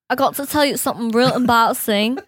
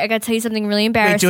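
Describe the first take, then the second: First: It is said in a put-on English accent. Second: It is said in the speaker's normal accent.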